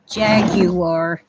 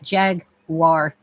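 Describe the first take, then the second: First: It is said in an English accent. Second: It is said in an American accent.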